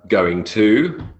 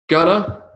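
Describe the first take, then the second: First: Each word is said fully and separately. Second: The words blend into a short reduced form.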